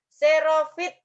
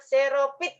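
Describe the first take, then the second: First: The consonant before the last vowel is an f. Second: The consonant before the last vowel is a p. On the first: This is the standard form. The speaker calls it right. "itu baku" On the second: This is the non-standard form. The speaker calls it wrong. "tidak bakunya"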